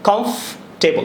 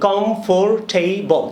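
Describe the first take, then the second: First: The word is said with fewer, compressed syllables. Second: The word is said with four syllables. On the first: The speaker calls it right. "দুইটা sound হবে" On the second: The speaker calls it wrong. "চারটা sound"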